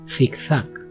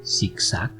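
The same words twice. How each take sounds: First: The first consonant sounds like English th. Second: The first consonant sounds like English s. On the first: "twice with a Spanish accent" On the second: "twice with a Latin American accent"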